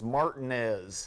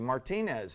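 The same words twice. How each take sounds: First: The name is said with a local Southern pronunciation. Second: The name is said with a Spanish-style pronunciation. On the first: The way locals in Georgia say it. ""It's Martinez," and corrects me" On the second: The speaker's own way, after the man it was named for. "and then I say Martinez"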